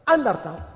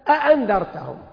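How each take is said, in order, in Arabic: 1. تبدأ الكلمة بهمزة واحدة. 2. تبدأ الكلمة بهمزتين. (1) "احذف واحدة وستصبح أنذرتهم" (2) "إذا اجتمعت همزتان"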